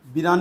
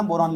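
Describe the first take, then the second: First: "बिरान" with an i in the first syllable; wrong form. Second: "बोरान" with an o in the first syllable; correct form. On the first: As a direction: say "बिरान", bi- instead of bo-. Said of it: "बिरान नहीं लिखना". ("बिरान" में पहला अक्षर "बि") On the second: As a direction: say "बोरान", starting bo- rather than bi-. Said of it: "बोरान लिखना है यार". ("बोरान" में पहला अक्षर "बो") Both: Shown as a demonstration.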